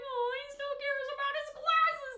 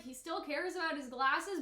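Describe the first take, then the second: First: "Oh, he still cares about his glasses" pitched much higher and a bit louder, heartfelt; moved, pitying voice on "glasses"; touched sympathy. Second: Said in the usual way. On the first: Retold or imitated. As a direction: say "glasses" like it breaks your heart a little. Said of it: "knowing the context of why". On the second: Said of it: "but now, knowing the context of why".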